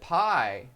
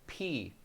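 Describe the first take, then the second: First: The vowel sounds like 'eye'. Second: The vowel sounds like 'ee'. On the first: "I always pronounce it pi anyway" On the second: "pie is actually pronounced P"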